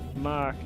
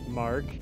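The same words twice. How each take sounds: First: It is said in a Boston accent, r dropped. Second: It is said in a plain accent, r pronounced. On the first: This is how the local family will say the name. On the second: This is the name as given.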